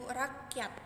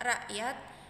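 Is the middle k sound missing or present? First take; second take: present; missing. First: The k sound in the middle is pronounced. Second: The k sound in the middle is dropped. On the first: The speaker calls it right. "yang benar" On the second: The speaker calls it wrong. "Pengucapan bunyi yang salah"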